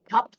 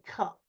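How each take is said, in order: First: The word is said at normal speed. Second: The word is said slowly and drawn out.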